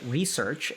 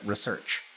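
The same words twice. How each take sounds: First: "research" stressed on the first syllable, REE-search; REsearch pronunciation. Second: "research" stressed on the second syllable, ruh-SEARCH; reSEARCH pronunciation. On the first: Speaker showing chat one med-school camp's pronunciation, REE-search for "research". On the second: Speaker showing chat the other med-school camp's pronunciation, ruh-SEARCH for "research". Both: Shown as a demonstration. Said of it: "people who pronounce it research".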